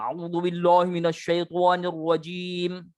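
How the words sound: It is mumbled with puffed cheeks, sounding muffled. "Menggembung-gembungkan mulut, bergumam"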